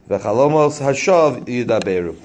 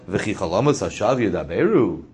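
First: It is said with a flat statement tune. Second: It is said with a questioning tune. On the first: Dreams speak falsehood. "The chalomos are fake, they speak" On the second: Surely dreams do not speak falsehood. "it all depends on where you place the inflection. ... Do chalomos speak falsity?"

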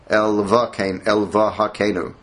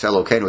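First: The word is said with a 'v' sound. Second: The word is said without a 'v' sound. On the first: Every written letter is read out for checking. "it would be Elvahakeinu, like that" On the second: The word is read the usual way. "it doesn't have a vav in it"

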